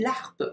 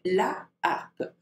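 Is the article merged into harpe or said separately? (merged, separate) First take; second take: merged; separate. First: The article is merged with the following vowel. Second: The article is said fully, before the vowel. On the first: The speaker calls it wrong. "we don't say l'harpe" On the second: The speaker calls it right. "we say la harpe"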